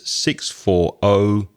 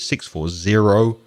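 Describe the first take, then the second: First: The zero is said like the letter O. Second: The zero is said as the word zero. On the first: This is the British way to read phone numbers. "in British English, you'd say O" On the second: This is the American way to read phone numbers. "in American English, you would say zero"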